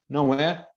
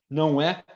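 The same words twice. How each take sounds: No difference in how they are said.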